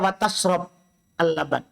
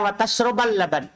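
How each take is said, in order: First: The verb ends with no vowel. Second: The verb ends with an a vowel. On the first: Drinking milk is also forbidden. "waw atop. Berarti dibaca wa tashrob al-laban" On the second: Drinking milk together with eating fish is forbidden. "Kalau waw ma'iyah itu adalah wa tashrabal laban"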